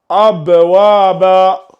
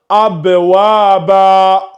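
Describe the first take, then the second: First: The word ends with a long a vowel. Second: The word ends with a long a vowel.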